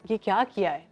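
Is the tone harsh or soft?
soft. It is said in a soft, gentle tone.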